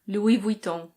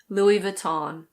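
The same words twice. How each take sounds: First: It is said with a French pronunciation. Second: It is said with an American pronunciation. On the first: "In French, this is pronounced Louis Vuitton" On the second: "In American English, it's very similar"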